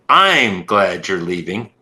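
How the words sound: The word I'm carries the emphasis. "if I italicize "I'm,""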